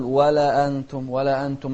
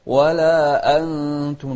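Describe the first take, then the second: First: أنتم glided into, no glottal catch; softened hamza, wrong. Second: أنتم chanted with a firm glottal start; clear hamza. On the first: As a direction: run ولا quickly into أنتم. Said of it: "ما نسهلها". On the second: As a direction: hold ولا, then strike أنتم cleanly. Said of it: "نوضح الهمزة". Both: Shown as a demonstration.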